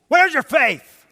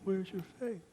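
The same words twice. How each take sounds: First: It is said loudly and forcefully. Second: It is said softly and gently.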